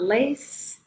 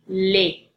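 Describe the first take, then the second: First: The final S is pronounced. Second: The final S is silent. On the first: The speaker calls it wrong. "is not les" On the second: The speaker calls it right. "it's les"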